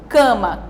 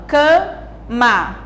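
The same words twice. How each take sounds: First: Said in the usual way. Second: CAMA split as ca, ma with a gap; syllable by syllable. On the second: Shown as a demonstration. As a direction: say CAMA in two separate, drawn-out beats. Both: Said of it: "palavras com duas sílabas".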